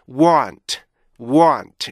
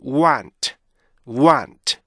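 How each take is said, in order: First: Want with a long aw vowel, wawnt. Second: Want with an ah vowel, wahnt. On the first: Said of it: "어, 이거로 발음되잖아요". ('어' 장모음의 want) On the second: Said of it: "아로 발음되면". ('아' 소리의 want) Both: Shown as a demonstration.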